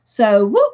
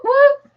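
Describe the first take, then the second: First: Said in the usual way. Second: Squealed whoop, much higher. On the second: Real, not acted. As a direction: jump way up on whoop. Celebrating a correct answer.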